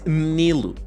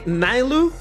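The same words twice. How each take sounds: First: The first syllable sounds like 'Ni' in 'Nika'. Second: The first syllable does not sound like 'Nika'. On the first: The name joins the first syllables of two daughters' names. The speaker calls it right. "the actual pronunciation of it is" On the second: This is how some people say the name. The speaker calls it wrong. "Some people say"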